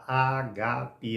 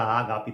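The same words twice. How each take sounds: First: The stress is on the first syllable. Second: The stress is on the second syllable. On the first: This is how the original word is said. The speaker calls it right. "se você ver no original, a palavra está ágape" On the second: This is the popular way people say it. The speaker calls it wrong. "Colocaram o acento no primeiro, lá no, no, no último A"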